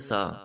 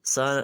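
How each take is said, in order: First: The first sound is a soft th. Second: The first sound is a plain s. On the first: The speaker calls it right. "इसको हम पढ़ेंगे सा" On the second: The speaker calls it wrong. "वो सीन की आवाज है"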